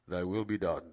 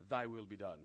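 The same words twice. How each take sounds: First: Louder, lower, formal scripture voice; solemn King James intoning. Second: King James reading. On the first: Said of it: "we have to even do it like this". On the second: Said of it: "I have to do this in King James". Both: Shown as a demonstration.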